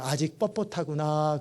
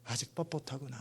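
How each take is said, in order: First: Gentle rebuke. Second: Soft repeat. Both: Retold or imitated. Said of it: "그러는 거예요".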